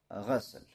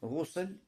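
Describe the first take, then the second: First: The first vowel is an 'a' sound. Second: The first vowel is an 'u' sound. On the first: "и можно с фатхой" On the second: "то тогда можно с даммой"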